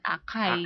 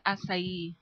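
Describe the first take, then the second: First: It is said the local Filipino way. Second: It is said the Brazilian Portuguese way. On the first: This is how people at home read it. "Sa atin, basa natin acai" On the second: This is how it is said where it comes from. "in Brazil, it pronounced acai"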